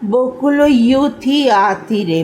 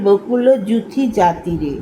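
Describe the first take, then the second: First: The words start with a 'y' and a vowel. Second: The words start with a 'j' sound. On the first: This is the old song-language pronunciation. "Bhanusingha পদে উচ্চারণ করা হতো বকুল ইউথি আতি রে" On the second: This is the everyday Bengali pronunciation. "বাংলায় যেটাকে বলা হয়"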